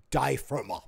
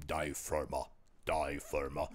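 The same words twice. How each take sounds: First: Said in the usual way. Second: German accent. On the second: Shown as a demonstration. A low German accent naming the East German band Die Firma.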